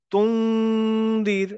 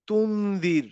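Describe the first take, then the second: First: তুন্দির slow, the n hidden into a long nasal hum. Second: তুন্দির with a full clear n sound; wrong plain n. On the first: Teacher showing the right ikhfa on তুন্দির, slow nasal hum. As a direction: stretch তুন্দির, hum the n through the nose. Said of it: "আমি বলবো". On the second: Teacher showing the wrong way to say তুন্দির, plain n. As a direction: say তুন্দির with the n fully spoken, not hidden. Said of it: "আমি বলবো না যে". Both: Shown as a demonstration.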